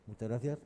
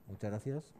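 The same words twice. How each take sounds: The two takes are said the same way.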